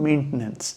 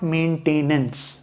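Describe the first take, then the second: First: The second syllable is reduced to a weak vowel. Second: The second syllable is a full 'tain' sound. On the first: The speaker calls it right. "थोड़ा अगर और neutral accent में जाएंगे तो" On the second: The speaker calls it wrong. "आप एक extra syllable जोड़ दे रहे हैं"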